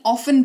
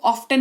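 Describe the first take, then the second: First: ऑफन with silent t; correct pronunciation. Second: ऑफ्टन said with the t sounded; wrong pronunciation. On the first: Teacher gives students the right form, ऑफन with silent t. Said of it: "ऑफन पढ़ेंगे इसको". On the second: Teacher shows the wrong way, ऑफ्टन with t. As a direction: demo the wrong way, ऑफ्टन with a clear t. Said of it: "ऑफ्टन नहीं". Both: Shown as a demonstration.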